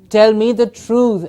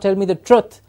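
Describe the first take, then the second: First: The vowel in truth is a long oo. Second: The vowel in truth is a short uh. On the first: The speaker calls it right. "It's not an uh, it's an oo" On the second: The speaker calls it wrong.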